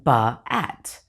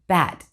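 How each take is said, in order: First: An extra uh vowel stretches the word apart. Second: The word is said smoothly as one syllable. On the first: The speaker calls it wrong. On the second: The speaker calls it right.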